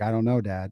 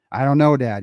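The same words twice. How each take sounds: First: Said in the usual way. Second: Mock-exasperated, leaning on "know"; frustrated child. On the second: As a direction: imitate your kid getting fed up with the questions. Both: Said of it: "He started getting frustrated".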